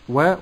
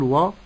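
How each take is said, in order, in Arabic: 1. صوت الواو خفيف ورقيق. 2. صوت الواو ثقيل وغليظ. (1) "واو مرققة أقول و" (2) "ولا أقول و"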